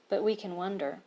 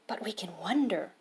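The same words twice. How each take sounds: First: It is read flatly, without emotion. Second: It is read with emotion and excitement. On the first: The speaker calls it wrong. "So the author wants you to read this not like" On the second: The speaker calls it right. "with a little bit of emotion and excitement in your voice"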